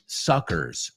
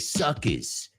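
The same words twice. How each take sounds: First: It is said in a general American accent. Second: It is said in a New York accent. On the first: "Like the rest of the United States says" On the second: "but in New York they say"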